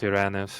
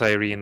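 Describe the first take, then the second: First: The name is said in a non-English way. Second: The name is said in an English way. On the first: It is how the name was meant to sound. "not Irene" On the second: It is easier for most players. "more you know convenient to pronounce it as Irene"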